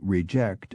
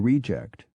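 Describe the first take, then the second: First: The stress is on the second syllable. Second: The stress is on the first syllable. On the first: It is used as a verb. "all such words were stressed on the second syllable" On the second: It is used as a noun. "the stress moved to the first syllable when they were used as nouns"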